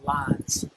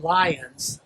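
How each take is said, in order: First: "lines" said as one syllable, lahnz; "lines" clipped to one Southern syllable, lahnz. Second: "lions" said slowly as two syllables, LIE-uns; "lions" drawn out as lie-uns, the big cat. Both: Shown as a demonstration. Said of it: "I'm not saying lions, now I'm saying lines".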